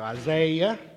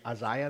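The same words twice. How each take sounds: First: It is said in a drawn-out Southern accent. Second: It is said in an English-style accent.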